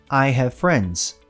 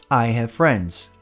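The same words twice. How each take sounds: The two takes are said the same way.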